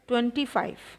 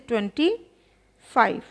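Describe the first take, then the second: First: The words run together without a pause. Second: There is a short pause between the words.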